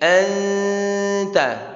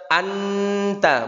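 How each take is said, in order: First: The n is hidden in a held nasal sound. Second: The n is said plainly without holding. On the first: The speaker calls it right. "samarkan ta'nya, tahan" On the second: The speaker calls it wrong. "bukan sekedar kita baca anta"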